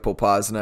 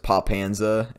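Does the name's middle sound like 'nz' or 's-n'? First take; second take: s-n; nz. First: The middle consonants sound like 's-n'. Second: The middle consonants sound like 'nz'. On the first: The speaker calls it right. "the city of Popasna" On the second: The speaker calls it wrong. "I always read the city of Popasna as Popanza"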